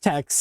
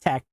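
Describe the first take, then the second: First: The word ends with a 'kst' sound. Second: The word ends with a plain 'k' sound. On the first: The speaker calls it wrong. "it's not pronounced text" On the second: The speaker calls it right. "pronounced tech"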